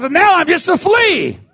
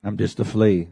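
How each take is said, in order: First: Preached cry. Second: Much lower and softer, inward; quiet echo. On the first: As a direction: call it out to the back row. Shouted then echoed quietly. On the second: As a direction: drop it to a hush. Quiet echo after shout. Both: Acted.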